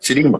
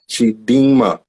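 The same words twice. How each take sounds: First: The name is said quickly. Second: The name is said slowly. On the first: "Or can I say it fast like Chidima?" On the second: "do I gotta say slow like that though?"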